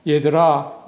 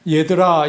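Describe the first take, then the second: First: Said in the usual way. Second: Louder call. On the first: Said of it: "이렇게 물으셨습니다". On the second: Shown as a demonstration. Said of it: "이 말은 아주 어린 아이에게, 부르는 말이죠".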